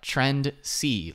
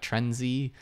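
First: The consonant after trend sounds like S. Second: The consonant after trend sounds like Z. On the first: The speaker calls it right. "but Trendsy, like C as in yes in Spanish" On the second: The speaker calls it wrong. "I just keep wanting to pronounce the S as a Z, like Trendsy"

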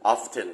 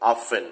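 First: The word is said with a clear t sound. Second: The word is said without a t sound. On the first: This is the British way of saying it. "คนอังกฤษจะออกเสียงเป็น often ทุกคนอังกฤษจะพูดเสียง t ค่อนข้างชัด" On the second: This is the American way of saying it. "คนอเมริกันจะออกเสียงเป็นตัว fin often ไม่มีเสียง t เลยนะ"

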